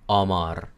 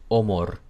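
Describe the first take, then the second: First: The vowels sound Spanish-like. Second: The vowels sound Hungarian-like. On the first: "con la O sin acento húngara, sonaría amor" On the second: "si lo digo con la O húngara"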